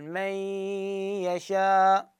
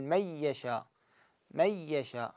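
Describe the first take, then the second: First: من يشاء with the nasal ghunna held two counts; recited with ghunna. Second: من يشاء said مِيَّشاء, ي doubled, no nasal hum; recited without ghunna. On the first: Teacher showing Hafs's partial merge with ghunna. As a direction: hold the nasal hum on من before يشاء. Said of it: "فشلون أقراها؟ أقول". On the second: Teacher showing Hamza's reading without ghunna. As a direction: merge straight into a doubled ي, no nasal. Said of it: "قارئ حمزة ... بدون غنة، يقول". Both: Shown as a demonstration.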